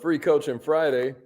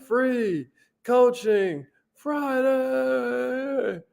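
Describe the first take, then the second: First: It is said in his normal speaking voice. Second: It is said in a Wheel of Fortune announcer voice.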